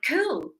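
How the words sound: It sounds eager and enthusiastic. The answer is a happy yes. "then it means definitely yes"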